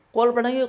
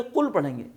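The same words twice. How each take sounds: First: قل punched high and loud; emphatic answer. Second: Said in the usual way. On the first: Shown as a demonstration. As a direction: call out قل like the answer to the class. (قل پر زور دے کر اونچی آواز میں) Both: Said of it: "ملا کے کیا پڑھیں گے".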